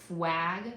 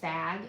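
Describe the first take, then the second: First: A w sound follows the f. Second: No consonant follows the f. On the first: "changing the L to a W" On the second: "completely leave out the L"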